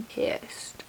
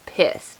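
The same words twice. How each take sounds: First: "Pissed" drawn out in a hushed, voiceless tone; emphatic PISSED. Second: Said in the usual way. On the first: Real, not acted. Telling viewers how mad mom was, hushed stress on "Pissed". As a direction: hit "Pissed" softly but pointedly.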